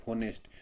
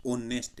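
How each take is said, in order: First: "होनेस्ट" with a sounded h at the front; wrong reading. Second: "ऑनेस्ट" starting on the vowel, h silent; correct reading. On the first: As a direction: pronounce the h in "होनेस्ट". ("होनेस्ट" में ह बोलकर गलत उच्चारण) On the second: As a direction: drop the h and open on "ऑ" in "ऑनेस्ट". ("ऑनेस्ट" में ह चुप, स्वर से शुरू) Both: Shown as a demonstration. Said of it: "जबकि ये होनेस्ट नहीं है".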